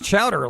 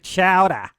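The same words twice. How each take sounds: First: The word ends with an r sound. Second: The word ends without an r sound. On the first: "I generally say chowder like with an er" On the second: "I don't say chowder"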